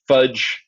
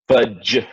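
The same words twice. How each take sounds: First: Said in the usual way. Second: "fudge" with the final dge leaned on as a J; stressed J sound. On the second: Shown as a demonstration. Teacher showing students consonance, "fudge" with a stressed J ending. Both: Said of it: "you get that J sounding G".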